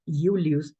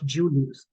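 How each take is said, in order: First: The word begins with a Y sound. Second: The word begins with a J sound. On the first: The speaker calls it right. "in Latin you are going to have an I" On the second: The speaker calls it wrong. "not Julius, with a J"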